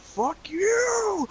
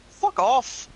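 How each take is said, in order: First: Very high, exaggerated mock outburst; over-emotional demo. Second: Short, higher-pitched brush-off; a simple send-off with no big outburst; simple dismissal. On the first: Showing how the brother didn't hang up, hammed-up high outburst. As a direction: overdo the emotion, pitched way up. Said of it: "No sort of emotion, no sort of". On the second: Showing how the brother dismissed callers, simple brush-off. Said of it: "Just a simple". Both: Shown as a demonstration.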